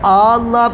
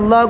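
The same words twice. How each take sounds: First: The first vowel is drawn out long. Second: The first vowel is short.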